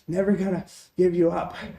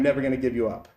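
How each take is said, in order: First: It is said in a silly, thin-lipped character voice. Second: It is said in a plain, ordinary voice.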